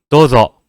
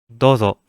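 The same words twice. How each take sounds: First: The word is said with too much force. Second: The word is said lightly without force. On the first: The speaker calls it wrong. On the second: The speaker calls it right.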